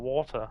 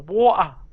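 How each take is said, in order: First: The T in the middle is clearly pronounced. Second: Southern British accent with the T dropped.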